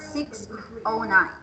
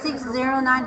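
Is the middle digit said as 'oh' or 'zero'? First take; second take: oh; zero. First: The middle digit is said as oh. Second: The middle digit is said as zero. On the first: The speaker calls it right. "the zero should be pronounced as O" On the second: The speaker calls it wrong.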